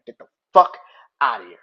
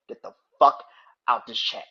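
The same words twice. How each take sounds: First: Much louder, top-of-the-lungs shout; furious yell. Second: Loud, angry order to get out; angry shout. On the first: Fed-up streamer screams at Devin fans to get out, furious. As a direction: blow up and yell them out of the room. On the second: Ranting streamer shouts at Devin fans to leave chat, angry. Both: Real, not acted.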